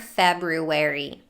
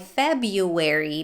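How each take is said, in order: First: The R after 'Feb' is pronounced. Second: The R after 'Feb' is dropped.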